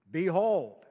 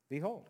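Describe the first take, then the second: First: Put-on loud old-fashioned announcing voice; archaic proclamation. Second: Said in the usual way. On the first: Shown as a demonstration. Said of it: "when's the last time you used that word". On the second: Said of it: "The word behold means".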